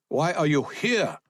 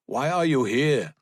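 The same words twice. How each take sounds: First: HERE pitched high, then falling; interrogating soldier leaning on HERE; stress on HERE. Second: Higher-pitched soldier's question; suspicious soldier, pitched up; interrogating soldier. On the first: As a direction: hit the word HERE insistently. Soldier repeats, jabbing at ground. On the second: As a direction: demand an explanation in a raised voice. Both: A narrator's reading.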